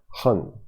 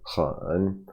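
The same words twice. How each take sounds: First: The word is said without a dipping tone. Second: The word is said with a dipping tone.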